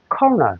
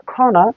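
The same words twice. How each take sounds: First: কর্নার with American Rs sounded; American R in corner. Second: কর্নার as kaw-na, British silent R; British R-less corner. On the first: English teacher models American corner, R sounded. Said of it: "আমেরিকানরা কর্নার". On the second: English teacher models British corner, silent R. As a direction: drop both Rs in British কর্নার. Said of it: "ব্রিটিশরা কর্নার". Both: Shown as a demonstration.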